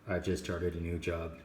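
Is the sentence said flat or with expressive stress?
flat. It is said flat, with even stress. The speaker calls it wrong. "she doesn't just say"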